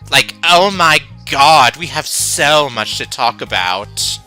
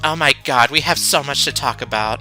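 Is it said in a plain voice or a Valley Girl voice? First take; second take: Valley Girl; plain voice. First: It is said in an exaggerated Valley Girl voice. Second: It is said in a plain, ordinary voice.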